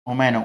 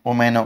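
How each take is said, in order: Both takes have the same delivery.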